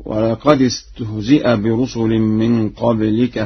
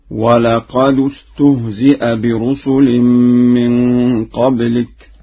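First: Said in the usual way. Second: Slow recitation, "ولقد استهزئ" linked as walaqadustuhzi'a; Warsh reading. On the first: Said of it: "وقوله تعالى". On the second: Shown as a demonstration. Teacher recites Warsh's example, "ولقد" ending in du. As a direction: link "ولقد" with a u on the dal. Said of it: "بضم الدال في لفظ قد".

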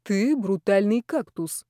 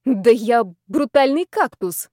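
First: Slow, understated answer; measured reply. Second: Louder, drawn-out mock indignation; indignant bravado. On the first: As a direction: answer slowly without raising the voice. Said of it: "оглядел меня и ответил". (медленно и сдержанно) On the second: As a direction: protest with slow, emphatic bravado. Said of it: "возмутилась я, скрывая за бравадой". (возмущённо, с бравадой) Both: A narrator's reading.

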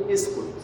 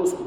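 First: اسكت said quickly with an opening e, eskut; mock the mistake, اسكت as eskut; wrong eskut. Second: اسكت said with a clear opening u, uskut; teacher models اسكت as uskut with u; correct uskut. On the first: Teacher shows students the wrong hamza, quick eskut. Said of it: "ما ينفعش أقول". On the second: Teacher shows students the right hamza, uskut. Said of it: "يبقى لازم أقول". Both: Shown as a demonstration.

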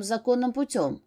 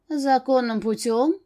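First: Said in the usual way. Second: Slow, higher-pitched indignant question. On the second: A narrator's reading. Dark energy challenges the demon's claim, indignantly. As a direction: throw it back as an affronted echo. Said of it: "С нотками негодования в голосе возмутилась энергия".

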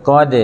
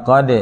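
First: Second "กอด" stopped dead on the d; wrong unbounced qod. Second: "กอด" with the final d released in a short echo, "qo-de"; correct bounced qod. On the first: Teacher showing what to avoid, no bounce. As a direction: swallow the final d of "กอด" with no echo. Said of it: "อย่าอ่านว่ากอด". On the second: Teacher showing qalqalah to students, bounced d. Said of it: "อ่านว่ากอด". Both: Shown as a demonstration.

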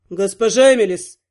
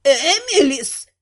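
First: Low-voiced male indignation; stern, deep-pitched objection; indignant. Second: Mildly indignant, drawn-out name. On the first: Prince stops the heroine heading for the bedroom, indignant. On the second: Venta stops the heroine heading for the bedroom, indignant. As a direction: stretch the name out in reproach. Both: A narrator's reading. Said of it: "была остановлена возмущённым".

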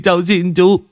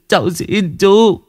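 First: High begging whine; pleading. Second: High, slow, stretched begging; drawn-out plea. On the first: Boy begging Vũ, high whine. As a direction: beg for mercy. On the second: Boy begging Vũ, slow high plea. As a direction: drag out the last plea. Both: Acted.

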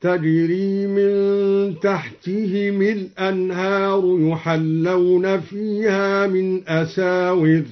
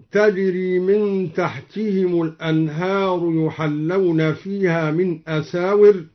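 First: Slow chant, تحتهم الأنهار linked as tahtihimi-l-anhar; kasra on joined mim. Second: Said in the usual way. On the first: Shown as a demonstration. Teacher demonstrating al-Duri's reading, slow tartil linking تحتهم with kasra. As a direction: chant slowly with an i after the m of تحتهم. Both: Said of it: "كسر الدوري الميم وصلا هكذا".

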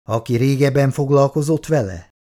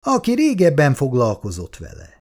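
First: Excited question, "foglalkozott" stressed with a falling tune; husband suddenly excited by his friend's idea. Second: Calm statement, "Aki" stressed and the tune falling to a firm close; husband confirming the idea to his friend; affirming repeat. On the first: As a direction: seize on the idea eagerly. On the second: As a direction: repeat it as settled fact. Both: A narrator's reading. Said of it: "jött izgalomba hirtelen".

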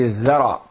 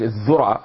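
First: الذرة said with e, as ðera; الذرة with a fatha on the dhal, ðera; right vowel. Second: الذرة said with u, as ðura; الذرة with a damma on the dhal, ðura; wrong vowel. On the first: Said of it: "هي الذرة". (الذرة بفتح الذال) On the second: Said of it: "ليست الذرة". (الذرة بضم الذال) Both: Shown as a demonstration.

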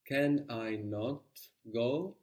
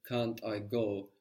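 First: "Can I not go?" with not said separately and slowly; slow, spelled-out "Can I not go?"; uncontracted can I not. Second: Said in the usual way. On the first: Shown as a demonstration. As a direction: break can't apart into can I not. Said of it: "Breaking that contraction of can't". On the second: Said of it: "rather than".

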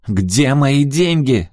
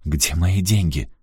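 First: High, loud, drawn-out yell; furious, raised-voice demand. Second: Said in the usual way. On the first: A narrator's reading. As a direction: scream the demand slowly and loudly. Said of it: "заорала она".

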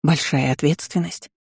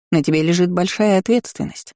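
First: "Большая ответственность" as a rising question; questioning echo. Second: "большая ответственность" stated firmly as a fact; emphatic declaration. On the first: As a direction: echo "Большая ответственность" back, tone lifting at the end. Girl echoes mentor's words in disbelief. («Большая ответственность» тихим недоумённым вопросом) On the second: Mentor declares, girl echoes it back. («большая ответственность» веско, как утверждение) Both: A narrator's reading.

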